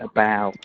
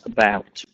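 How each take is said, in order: First: The final t sound is very quiet. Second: The final t sound is clearly heard. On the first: The speaker calls it wrong. "The T sound on the end of about was a little quiet" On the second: The speaker calls it right. "not about"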